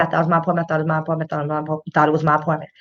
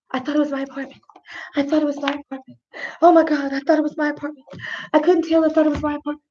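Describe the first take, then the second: First: Low, muttered rote repetition; imitating Amber Geiger. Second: Higher, softer mock repeated plea; lightly voiced, higher-pitched replay of an excuse; imitating Amber Geiger. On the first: Host quotes the officer's tape, low droning mock repetition. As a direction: run the excuse together in a low drone. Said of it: "Okay, she said". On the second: Host mimics the officer's repeated excuse, higher mock plea. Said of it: "Amber Geiger is saying the whole time".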